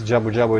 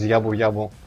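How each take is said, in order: First: The name begins with a J sound. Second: The name begins with a Y sound.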